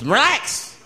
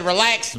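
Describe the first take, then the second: First: "relax" pitched up with a sharp rise; insistent repeat. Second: Said in the usual way. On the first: Acted. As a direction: push "relax" higher, insisting.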